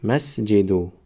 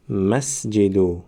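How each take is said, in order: First: Said in the usual way. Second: مسجدو very slow, brief stop after the silent س; slow model reading. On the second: Shown as a demonstration. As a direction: draw out مسجدو for students to repeat.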